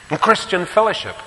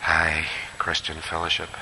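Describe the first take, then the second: First: Emphatic announcement. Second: Wry aside. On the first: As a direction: lift it up like a new heading. Preacher announces next point. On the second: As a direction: drop it low like a rueful joke. Preacher's wry repeat. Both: Acted.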